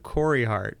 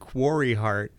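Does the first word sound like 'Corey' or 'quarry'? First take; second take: Corey; quarry. First: The first word sounds like 'Corey'. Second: The first word sounds like 'quarry'. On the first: The speaker calls it right. "instead of Corey Hart" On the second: The speaker calls it wrong. "I said Quarry Hart instead of Corey Hart"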